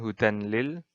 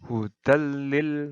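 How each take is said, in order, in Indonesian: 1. Bunyi n diucapkan sebelum l. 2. Bunyi n menyatu penuh dengan l yang dobel. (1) "bukan hudan lil" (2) "tapi hudal lil muttaqin"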